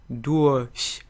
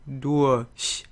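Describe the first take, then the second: First: The R becomes a soft vowel sound. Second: The R becomes a soft vowel sound.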